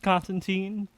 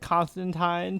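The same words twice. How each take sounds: First: The name is said a non-British way. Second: The name is said the British way. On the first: It refers to the New 52 version of the character. "which I pronounce as Constantine to, to you know make a distinction" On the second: It refers to the classic Hellblazer character. "British people pronounce it Constantine"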